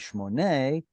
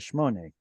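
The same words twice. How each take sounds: First: The stress is on the last syllable. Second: The stress is on the first syllable. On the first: This is the standard form. "It should be shmone" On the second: This is the common everyday form. "Everyone says shmone"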